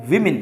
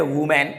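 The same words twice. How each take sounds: First: विमेन as WIM-in, short i twice; correct pronunciation. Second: वुमेन as woo-men, with a full MEN; wrong pronunciation. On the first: Teacher gives the plural's true sound, WIM-in. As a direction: say विमेन with i in both syllables. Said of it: "सही sound होता है". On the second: Teacher shows what people say, mistaken woo-men. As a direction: say वुमेन with oo first, open e last. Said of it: "इसका जो सही sound". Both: Shown as a demonstration.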